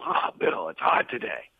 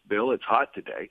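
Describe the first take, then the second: First: It is said in an energetic, complaining tone. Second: It is said in a neutral, matter-of-fact tone.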